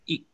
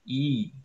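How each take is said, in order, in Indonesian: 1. Vokalnya pendek, diucapkan cepat. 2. Vokalnya dipanjangkan, ditahan lebih lama. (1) "I tanpa garis di atas itu berarti I pendek. Jadi dibacanya cepat aja" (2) "dibaca panjang berarti dibacanya I agak panjang ya"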